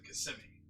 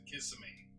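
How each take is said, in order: First: The name is pronounced the way locals say it. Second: The name is pronounced the way outsiders say it. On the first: The speaker is from the area. "everyone who lives in Florida calls it Kissimmee" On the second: The speaker is not from the area. "everyone who does not live in Central Florida pronounces it Kissimmee"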